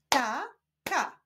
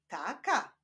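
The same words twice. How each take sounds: First: TA, pause, KA; syllable by syllable. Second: Said in the usual way. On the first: Shown as a demonstration. Teacher leading reading practice, Ta-ka split apart. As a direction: sound out "Taka" with a gap after Ta. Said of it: "łączmy sylaby". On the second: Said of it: "Powstaną z nich wyrazy".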